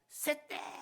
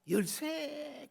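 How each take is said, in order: First: It is said in Gyeongsang dialect pronunciation. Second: It is said in standard Korean pronunciation. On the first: "경상도 사투리로 새떼 그랬거든요" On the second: "열쇠 그랬대잖아요"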